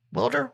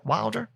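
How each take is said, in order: First: "Wilder" as WILL-der, higher and rising; softer, high-pitched "Wilder?" rhyming with "builder"; short-i pronunciation, questioning. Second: "Wilder" as WILE-der, higher and rising; softer, high-pitched "Wilder?" with a long i; long-i pronunciation, questioning. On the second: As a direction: try "Wilder" like "wild", as a question. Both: Shown as a demonstration. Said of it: "It's one of those".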